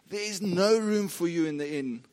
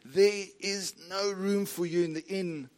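First: The sentence is spoken as fast as possible. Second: The sentence is spoken somewhat quickly. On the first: "George said his lines as fast as he could" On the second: "And he said it a bit faster"

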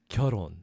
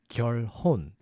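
First: The L and H sounds blend together. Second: The L and H sounds are kept separate. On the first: The speaker calls it right. "The L and H sounds kind of mixed together" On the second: The speaker calls it wrong. "it actually doesn't sound like"

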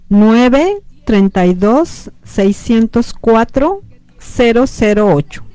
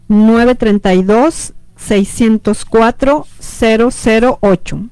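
First: The number is read at a slower pace. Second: The number is read at a faster pace.

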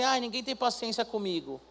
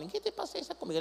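First: It is said in a put-on man's voice. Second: It is said in a girl's voice, like Chiquinha.

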